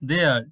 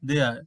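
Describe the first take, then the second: First: Two separate words are said in full. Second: The words merge into one contracted syllable.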